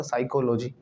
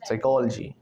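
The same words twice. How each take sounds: First: साइकोलॉजी as psycho-lo-jee, full o; common pronunciation. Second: साइकोलॉजी as psy-kol-jee; break after L. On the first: Teacher introduces the next word, full vowels. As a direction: sound साइकोलॉजी as psycho plus logy. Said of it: "ऐसे में आता साइकोलॉजी". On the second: Teacher models it for students, compact psykol-jee. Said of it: "कैसे बोलेंगे?". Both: Shown as a demonstration.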